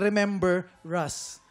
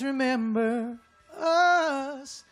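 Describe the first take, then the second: First: An R sound is linked onto 'us'. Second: No R sound is heard before 'us'. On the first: The speaker calls it wrong. "nilagay niyo yung R ulit" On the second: The speaker calls it right. "tanggalin yung R dun sa us"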